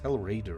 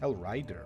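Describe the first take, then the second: First: The second word sounds like 'raider'. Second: The second word sounds like 'rider'. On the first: The speaker calls it wrong. "It's Hell Raider" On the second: The speaker calls it right. "Oh no, it's Hell Rider"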